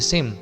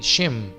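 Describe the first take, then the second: First: The name begins with a plain s sound. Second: The name begins with a sh sound. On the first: The speaker calls it wrong. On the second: The speaker calls it right.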